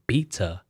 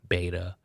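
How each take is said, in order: First: It is said the British way, across the pond. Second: It is said the speaker's own American way.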